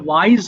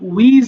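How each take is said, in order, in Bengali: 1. স্বরধ্বনিটি দ্বিস্বর 'eye', যেমন 'wise'। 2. স্বরধ্বনিটি ছোট 'i', যেমন 'wiz'। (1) "এটা ওয়াইজ হবে" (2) "এটা অনেকে ভুল করে আমরা উইজ বলে ফেলতে পারি"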